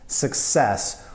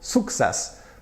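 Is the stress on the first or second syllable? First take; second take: second; first. First: The stress is on the second syllable. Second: The stress is on the first syllable.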